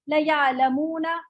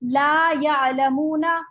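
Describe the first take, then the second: First: The first word has a short vowel. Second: The first word has a long vowel. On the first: They surely know. The speaker calls it wrong. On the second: They do not know. The speaker calls it right.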